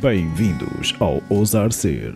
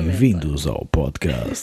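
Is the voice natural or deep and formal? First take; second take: natural; deep formal. First: It is said in a natural speaking voice. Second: It is said in a deep, serious announcer voice.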